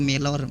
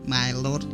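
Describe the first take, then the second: First: It is simplified to a smooth two-syllable 'melor'. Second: It is said as English 'my lord', diphthong intact. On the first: Local people find this easier to say. "digampangkan jadi daripada My Lord kan lebih enak Melor" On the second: This is the original foreign name. "bahasa asing dari negeri British gitu, British accent lah misal"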